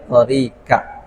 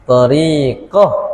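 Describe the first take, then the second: First: The word ends with a clear t sound. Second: The word ends with a soft h sound. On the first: This follows the Malay reading. "Tapi lorak baca tarikat" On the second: This follows the Arabic reading. "Tamar butuh"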